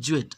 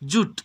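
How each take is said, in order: First: The word is said as two syllables, joo-et. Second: The word is said as one syllable, joot. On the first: The speaker calls it wrong. "আমরা অনেকে বলি জুয়েট, আসলে কিন্তু এর উচ্চারণ জুয়েট না" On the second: The speaker calls it right. "এটা কিন্তু জুট"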